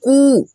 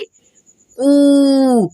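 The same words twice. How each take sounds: First: The vowel is short and said quickly. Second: The vowel is long and drawn out. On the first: "छोटा कू, फास्टली पढ़ेंगे" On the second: "पढ़ेंगे खींच करके"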